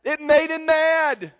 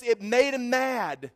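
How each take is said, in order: First: Higher, louder, slow punch; emphatic repeat. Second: Said in the usual way. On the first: Shown as a demonstration. Preacher repeating the punchline to the congregation, much louder and higher. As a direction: drive the line home to the crowd. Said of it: "repeated with force". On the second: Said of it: "first plain take".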